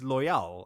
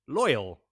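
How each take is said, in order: First: The name is said with a French flair. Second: The name is said the plain English way. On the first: This is how the speaker imagined the name. "in my mind, is always loyal ... a little French flair" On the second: This is how the name is officially pronounced. "what is pronounced as loyal"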